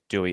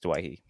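First: The name is said like 'dew-ee'. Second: The name is said like 'dway-hee'. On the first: This is how the commentators say the name. The speaker calls it wrong. "I just can't bring myself to say the name that's not actually his name" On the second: This is how the player's name is really pronounced. The speaker calls it right. "The correct pronunciation is Dwayhee"

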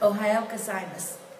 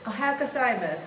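First: It is said slowly. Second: It is said at normal speed.

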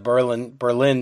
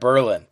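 First: It is said like the German city's name. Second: It is said like the Connecticut town's name. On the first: It names the capital of Germany. The speaker calls it wrong. "You can't go there and say, oh, I'm in the Berlin town" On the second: It names the town in Connecticut. The speaker calls it right. "No, you're in Berlin. They'll correct you on these things"

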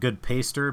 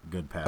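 First: The second word sounds like 'paste' plus 'er'. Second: The second word sounds like 'past' plus 'er'. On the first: It is read from the spelling. "it's E-R, so it's like good paster" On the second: It is how the person is imagined to say it. "I'd like to think he pronounces it good pastor"

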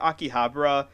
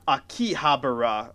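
First: It is pronounced the native way. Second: It is pronounced with a foreign accent. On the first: The speaker calls it right. "he pronounces the word Akihabara correctly" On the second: The speaker calls it wrong. "He mispronounces Akihabara like Akihabara"

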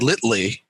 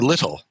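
First: The word ends in an 'ee' sound. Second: The word ends in an 'l' sound. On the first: The speaker calls it wrong. "You wouldn't say litly" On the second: The speaker calls it right. "You would say little"

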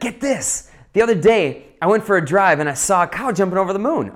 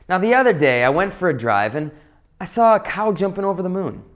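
First: It is said in an excited, lively tone. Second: It is said in a bland, flat tone.

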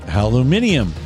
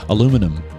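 First: It is said with a British pronunciation. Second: It is said with an American pronunciation.

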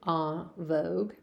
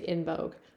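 First: The name is said with a French pronunciation. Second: The name is said with an English pronunciation. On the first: "If it's French, it would be En Vogue" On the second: "people usually just say En Vogue"

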